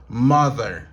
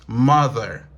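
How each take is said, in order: Both takes have the same delivery.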